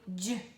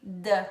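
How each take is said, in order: First: The letter sounds like the d in dia. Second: The letter sounds like the d in dedo. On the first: "e tem o d, dia" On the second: "Tem o d, dedo"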